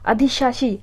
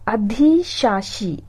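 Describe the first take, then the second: First: Said in the usual way. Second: अधिशासी stretched very slowly; drawn-out word. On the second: Shown as a demonstration. Teacher stretches अधिशासी out slowly for students.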